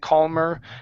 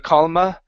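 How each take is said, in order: First: The word ends with a strong r sound. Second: The word ends with an uh sound, no r. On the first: "in American English we do say er and like bird and calmer" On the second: "if you want the British accent, then that's fine. ... you can say calma"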